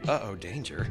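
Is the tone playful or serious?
serious. It sounds dark and serious.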